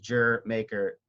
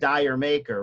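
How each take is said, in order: First: The first word is said as one syllable, 'jer'. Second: The first word is said as two syllables, 'dyer'. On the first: The speaker calls it right. "It's how British people say Jamaica" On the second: The speaker calls it wrong. "everyone pronounces as Dyer Maker"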